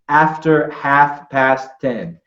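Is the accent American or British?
American. It is said with an American accent. "I would say"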